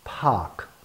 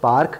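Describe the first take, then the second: First: It is said with an English-sounding accent. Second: It is said plainly without an English accent. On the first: "ये accent भी है, pronunciation भी है" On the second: "ये pronunciation है, accent नहीं है लेकिन ठीक है"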